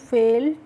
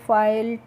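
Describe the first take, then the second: First: The vowel sounds like 'ay'. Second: The vowel sounds like 'eye'. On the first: The speaker calls it right. "कैसे करना है बच्चों" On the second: The speaker calls it wrong. "इस तरीके से नहीं pronounce करना है"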